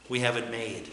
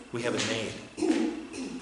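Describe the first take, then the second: First: Quiet statement. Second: Slow repeat. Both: Shown as a demonstration.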